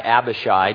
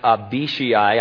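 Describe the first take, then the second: First: The name is said in a familiar English way. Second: The name is said in a Hebrew way. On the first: The speaker calls it wrong. "for years I've called this guy Abishai because that makes sense to me" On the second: The speaker calls it right. "so I believe that his name is pronounced Abishai"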